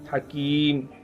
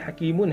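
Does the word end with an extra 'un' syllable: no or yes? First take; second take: no; yes. First: The word ends cleanly on its final consonant. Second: The word ends with an added 'un' syllable. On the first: The reader stops at the end of the verse. "मीम के ऊपर जज़म हो जाएगा" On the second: The reading continues without stopping. "अभी हकीमुन है"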